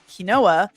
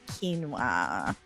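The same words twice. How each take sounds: First: It is said letter by letter, like kwin-oh-a. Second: It is said with two syllables, like keen-wah.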